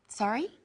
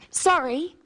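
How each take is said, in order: First: It is said as a request to repeat. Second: It is said as an apology.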